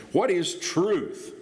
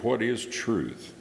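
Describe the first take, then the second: First: High, drawn-out derisive question. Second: Slow, gently inquisitive question; plaintive, inquisitive. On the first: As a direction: scoff the question slowly, pitched well up and falling. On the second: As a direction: ask it slowly, as if earnestly wondering. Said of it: "a plaintive or inquisitive". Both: Acted.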